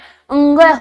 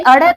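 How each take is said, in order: First: It is said with a nasal 'ng' sound. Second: It is said with a flapped 'r'-like sound. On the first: The speaker calls it right. "इसका उच्चारण क्या होता है, अंग होता है" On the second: The speaker calls it wrong. "ये अड़े खाली नहीं है"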